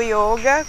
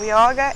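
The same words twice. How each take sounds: First: Yoga with a closed middle vowel; Sanskrit yoga, closed O. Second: Yoga with an open middle vowel; Brazilianised yoga, open O. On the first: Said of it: "vem do sânscrito". (iôga com "ô" fechado) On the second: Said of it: "O yoga é abrasileirado". (ióga com "ó" aberto) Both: Shown as a demonstration.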